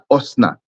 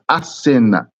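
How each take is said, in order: First: The name begins with an 'o' sound, two syllables. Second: The name begins with an 'a' sound, three syllables. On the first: The speaker calls it wrong. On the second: The speaker calls it right. "there's a ma'amid there"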